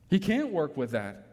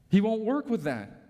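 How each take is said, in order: First: CAN'T said level, in the usual voice; stress on CAN'T. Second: WON'T pressed high and falling; stress on WON'T. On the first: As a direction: shift the weight to can't. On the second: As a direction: lean on won't, not on can't. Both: Shown as a demonstration.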